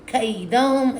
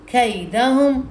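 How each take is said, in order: Both takes have the same delivery.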